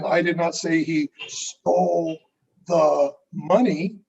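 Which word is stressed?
money. The stress falls on the word money. He took something else. "then what did he take?"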